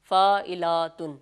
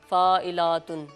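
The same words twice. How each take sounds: The two takes are said the same way.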